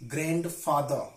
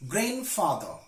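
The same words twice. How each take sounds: First: "grandfather" slowly, with the first d sounded. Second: "grandfather" with no d after the n; silent D in grandfather. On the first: Teacher shows the mistake, "grandfather" with audible first d. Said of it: "not grandfather". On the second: Teacher corrects learners, "grandfather" said without d. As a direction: slowly say "grandfather" as GRAN-father. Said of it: "tricky examples of the silent letter D". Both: Shown as a demonstration.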